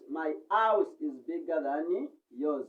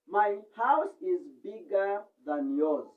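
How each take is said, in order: First: The H at the start of 'house' is dropped. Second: The H at the start of 'house' is pronounced.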